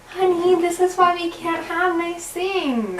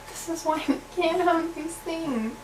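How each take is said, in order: First: It is said in a nice, sweet tone. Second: It is said in a sad tone.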